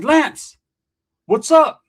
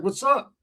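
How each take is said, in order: First: Loud, high, urgent hail; calling out. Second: High but unforced answer; casual reply. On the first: Storyteller hails friend at school, loud urgent call. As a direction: hail a friend and demand answers. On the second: Imitating friend answering at school, casual reply. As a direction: toss the greeting back, no urgency. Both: Retold or imitated.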